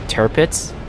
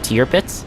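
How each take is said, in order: First: The first part sounds like 'turret'. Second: The first part sounds like 'teer'. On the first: The speaker calls it wrong. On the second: The speaker calls it right.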